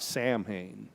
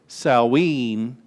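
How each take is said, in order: First: It is pronounced letter by letter, as spelled. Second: It is pronounced the way it is in Wales. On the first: "It's not pronounced like it looks, not Samhain" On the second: "Samhain in Wales"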